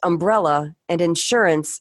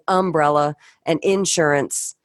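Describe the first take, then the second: First: The words have a neutral pronunciation. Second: The words have a regional pronunciation. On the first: "they're pronounced" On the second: "I was saying"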